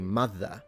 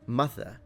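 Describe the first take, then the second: First: The th sound in the middle is voiced. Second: The th sound in the middle is voiceless. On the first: "like I would say, mother, with a th, like in brother" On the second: "She's saying th, mother, like in think"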